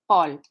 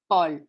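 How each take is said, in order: The two takes are said the same way.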